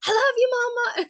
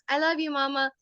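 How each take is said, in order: First: Very high, loud little-kid imitation; toddler calling loudly. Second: Slightly higher, lightly voiced child; toddler's first try. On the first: Toddler calls to mom in the kitchen, high loud call. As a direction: holler it like a toddler from bed. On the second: Toddler answers mom at bedtime, lightly voiced child. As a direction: imitate a small child at normal volume. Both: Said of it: "he just kept saying it louder and louder".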